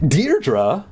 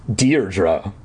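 First: Puzzled, lifted one-word question; surprised. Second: Thinking hard. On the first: Counselor hears the missing girl's name, surprised. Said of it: "narrowed his eyes in surprise". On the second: Counselor tries to recall the camper, thinking hard. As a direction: mull the name over. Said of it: "thinking hard". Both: A narrator's reading.

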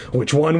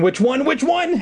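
First: Plain. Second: Much higher, frantic last repeat; rising panic. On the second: Eddie, at the fork, frantically repeating. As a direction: push the pitch up in panic. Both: A narrator's reading. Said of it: "Eddie repeated".

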